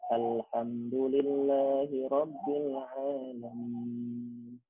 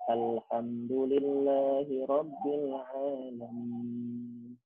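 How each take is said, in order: First: The vowels are clipped, with the mouth barely open. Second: The vowels are clipped, with the mouth barely open.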